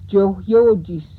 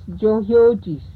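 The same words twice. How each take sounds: The two takes are said the same way.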